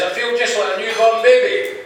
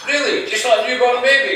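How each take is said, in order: First: Put-on high, lilting old man's answer; chipper old man. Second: High-pitched disbelieving question; incredulous echo. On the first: Old Slim answers his friend's question, high and chipper. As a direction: declare it proudly in a higher voice. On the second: Acted. Old man doubts Slim's claim, high incredulous echo. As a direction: echo it back in astonishment, voice pitched right up. Friend echoes Slim in disbelief.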